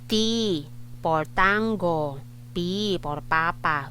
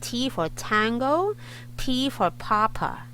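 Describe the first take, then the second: First: The T and P are said without a puff. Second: The T and P are popped with a puff. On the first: The speaker calls it wrong. "We don't say it like that" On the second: The speaker calls it right. "Pop the T and the P"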